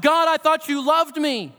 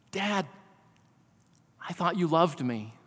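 First: Higher, pleading cry of a sufferer; a touch of a hurt cry lifted up to God; anguished cry to God. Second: Put-on soft, hushed, wounded child's words; quiet, retold plea of a hurt little boy. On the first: Retold or imitated. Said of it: "That we're screaming, we're crying". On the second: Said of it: "In the midst of his sobbing and crying".

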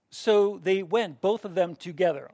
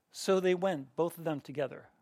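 First: Slow, louder, leaning on every word; slow emphatic reading. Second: Said in the usual way. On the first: Shown as a demonstration. Teacher reading the underlined verse to class, slow and emphatic. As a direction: drive home the repeated line.

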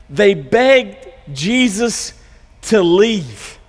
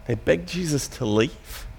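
First: They BEGGED Jesus to leave, drawn out on begged; slow stressed telling. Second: Much softer and lower, nearly under the breath, on "They begged Jesus to leave"; quiet astonished repeat. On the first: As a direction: lean slowly on the word begged. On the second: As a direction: drop to a hushed, disbelieving repeat. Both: Shown as a demonstration. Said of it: "a pretty surprising turn of events".

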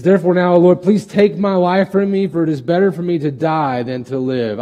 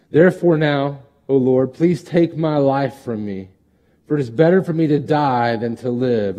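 First: High, loud, whining plea; whiny Jonah. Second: Scripture reading. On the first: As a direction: play Jonah as a sulking complainer. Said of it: "He says". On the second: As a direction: read Jonah's wish to die with weight. Reads Jonah's plea. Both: Acted.

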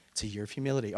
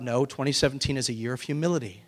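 First: Much softer, lower echo of "humility"; hushed repeat, "humility" falling away; quiet repeat. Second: Said in the usual way. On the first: Shown as a demonstration. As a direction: drop it to an aside, soft.

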